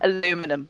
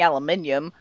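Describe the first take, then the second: First: It is said the American way, aluminum. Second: It is said the British way, aluminium.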